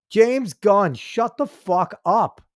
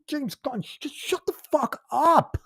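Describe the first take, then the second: First: Slow, punched, fed-up command; fed-up anger. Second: Much higher, strained, pained whine; exasperated whine. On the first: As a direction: spell it out slowly in anger. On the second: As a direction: plead in exasperation, almost crying. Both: Real, not acted. Angry rant at director.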